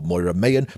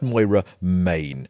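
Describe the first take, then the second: First: The surname sounds like two syllables, my-an. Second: The surname sounds like the word main. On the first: The speaker calls it wrong. "or Moira Mayan" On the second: The speaker calls it right. "but Moira Main"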